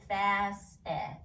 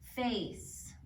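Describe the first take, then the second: First: Short vowel, with an extra vowel sound at the end. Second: Long vowel, with no sound after the final consonant. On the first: The speaker calls it wrong. "Otherwise it'd be like fast eh" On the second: The speaker calls it right. "the E makes the A say its name, but we don't say the E"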